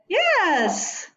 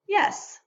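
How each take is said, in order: First: It is said strongly, with extra force. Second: It is said plainly, without extra force. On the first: "then it's strong and emphatic" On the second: "it would be normal and unemphatic"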